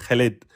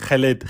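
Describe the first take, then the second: The two takes are said the same way.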